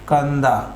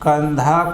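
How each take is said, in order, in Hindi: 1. यह व्यंजन सादा d है, बिना साँस के। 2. dh ध्वनि महाप्राण है, साँस के साथ।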